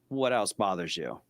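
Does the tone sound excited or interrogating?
interrogating. The tone sounds flat, hard and probing. The asker is questioning the person like a suspect. The speaker calls it wrong. "now we're like interrogating the guy"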